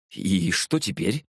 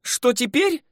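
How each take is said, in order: First: Slow, dazed question; bewildered, drawn-out query; stunned. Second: Very high, mocking girl's echo; high, huffy retort; displeased scoff. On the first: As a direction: ask it haltingly, at a loss. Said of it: "ошеломлённо спросил я". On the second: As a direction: echo the question with irritation. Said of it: "недовольно хмыкнула веснушчатая". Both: A narrator's reading.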